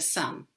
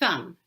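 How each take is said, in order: First: The s is a clear, ordinary hissing sound. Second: The s is made with the tongue between teeth. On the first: The speaker calls it right. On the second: The speaker calls it wrong.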